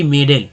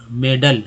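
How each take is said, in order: First: "मेडल" with a full 'e' in the last syllable, 'may-DEL'; wrong pronunciation. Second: "मेडल" with a short 'uh' in the second syllable; correct pronunciation. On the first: Teacher warning against the misreading, mispronounced "मेडल". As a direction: say "मेडल" louder, sounding the final A as 'e'. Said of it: "ना कि मेडल". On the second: Teacher modelling the right reading, correctly pronounced "मेडल". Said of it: "अ पढ़ना है". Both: Shown as a demonstration.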